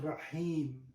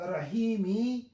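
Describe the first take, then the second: First: The word ends on a stopped final m. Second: The word ends with a short i vowel. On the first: "we are putting Rahim" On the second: "we are not pronouncing this"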